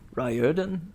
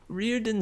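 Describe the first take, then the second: First: The first syllable sounds like 'rye'. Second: The first syllable sounds like 'ree'. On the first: This is the form the author himself prefers. "he prefers Riordan" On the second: This is the form the speaker had been using. "Reardon sounds so much better"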